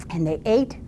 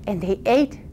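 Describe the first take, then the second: No difference in how they are said.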